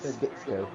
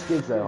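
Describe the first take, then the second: First: The middle consonant is a ts sound. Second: The middle consonant is a plain z sound. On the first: The speaker calls it wrong. "I said Skitsko, like it's schizophrenia" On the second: The speaker calls it right. "It's Skizzo"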